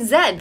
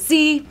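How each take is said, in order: First: The letter is said the Canadian way, as 'zed'. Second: The letter is said the American way, as 'zee'.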